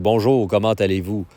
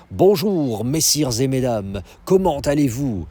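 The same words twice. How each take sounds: First: Everyday Quebec French greeting; Quebecois accent. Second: Higher, put-on metropolitan French greeting; standard French accent. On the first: Shown as a demonstration. Montreal local showing how we talk, in Quebecois accent. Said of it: "We're Quebecois. We talk like". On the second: Themed restaurant waiter greeting the guests, in standard French accent. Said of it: "they speak with a standard French accent".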